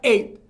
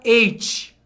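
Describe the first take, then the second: First: The final T is barely pronounced at all. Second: The final T is released with a hissing sound. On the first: The speaker calls it right. "Você quase não fala o T" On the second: The speaker calls it wrong. "Muita gente fala eight. Não é. Esse T no final no inglês, ele não tem esse som de sh"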